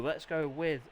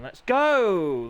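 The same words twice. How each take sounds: First: Said in the usual way. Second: A loud, punchy call to kick things off; announcer's rallying call; called out start. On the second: Acted. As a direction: shout it to launch the race. Calling the race start.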